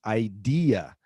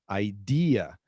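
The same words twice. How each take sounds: No difference in how they are said.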